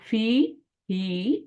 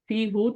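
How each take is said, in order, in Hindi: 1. शब्द 'ee' स्वर से खत्म होता है। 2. शब्द 'oo' स्वर से खत्म होता है। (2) "फ़ी हू तो नहीं कहेंगे ना?"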